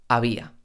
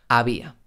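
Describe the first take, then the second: No difference in how they are said.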